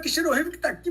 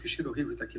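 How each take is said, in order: First: It is said in an exaggerated, lively way. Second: It is said in a restrained, low-key way. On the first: "cabia ser mais um pouco mais" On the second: "Em vez de falar assim"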